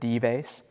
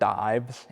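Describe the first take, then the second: First: It is pronounced with a Latin pronunciation. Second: It is pronounced like the English word dives. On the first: "In Latin, you would pronounce it Dives" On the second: "It looks like the word dives in English"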